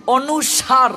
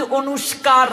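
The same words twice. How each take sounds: First: অনুসার slowly, plain s sound and no k; teacher's slow corrected অনুসার; corrected pronunciation. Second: অনুষ্কার with a shk cluster in the middle; quick everyday অনুষ্কার; wrong pronunciation. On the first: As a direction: model অনুসার slow and clear. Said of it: "ভুল, অনুসার।". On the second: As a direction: say অনুষ্কার as the common mistake. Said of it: "ভুল". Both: Shown as a demonstration.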